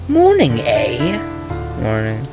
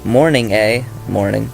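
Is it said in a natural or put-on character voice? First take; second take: put-on; natural. First: It is read in a put-on character voice. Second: It is read in his natural voice.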